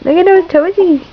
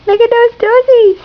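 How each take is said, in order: First: Said in the usual way. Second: Squeaky high coo over the toesies. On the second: Real, not acted. Mother cooing over her baby's toes, very high. Repeat, much higher to baby.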